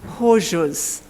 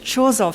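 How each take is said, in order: First: The name is said with a Polish-like pronunciation. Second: The name is said with an English pronunciation. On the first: "the pronunciation should be something more like" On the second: "a case we call in English"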